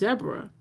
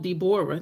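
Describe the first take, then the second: First: The name is said with two syllables. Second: The name is said with three syllables. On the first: This is what people actually called her. "I was raised being called Deborah, which is D E B R A" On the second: This is how the name was spelled. "my name was spelled Deborah, D E B O R A H"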